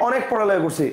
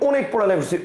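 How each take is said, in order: No difference in how they are said.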